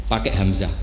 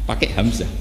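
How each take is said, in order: No difference in how they are said.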